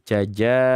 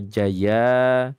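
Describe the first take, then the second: First: The middle consonant is a j sound. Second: The middle consonant is a y sound. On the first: "ada juga yang menyebutkan begini, jaja" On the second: "bukan jaza. Jaza atau jaya"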